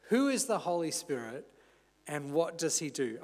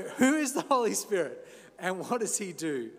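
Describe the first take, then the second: First: Said in the usual way. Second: Mock Austrian action-hero accent; Arnold Schwarzenegger. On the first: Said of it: "I'm not gonna do that in Arnie's accent". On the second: Preacher jokingly asking the sermon's question, mock Austrian accent. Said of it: "that in Arnie's accent".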